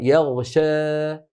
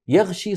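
First: The final vowel is halfway between a and eh. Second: The final vowel sounds like a full ee. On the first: "بين الألف والإمالة الكبرى" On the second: "يغشي صارت ياء يا أخي"

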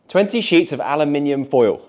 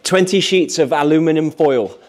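First: Aluminium is said the British way. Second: Aluminium is said the American way.

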